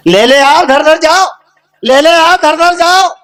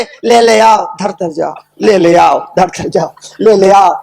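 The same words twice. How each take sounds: First: Chanted, high, lifted calling voice; chanted, acted instruction, pitched up and ringing; demonstrated chant. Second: Retold chant, let it sag; mumbled repetition. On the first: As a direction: call it out as a repeated chant. Dictates funeral-like chant to the fool. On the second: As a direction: repeat it lower, dropping on every second phrase. Fool repeats the phrase while walking.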